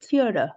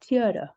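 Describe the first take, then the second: First: It is said in an American accent. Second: It is said in an American accent.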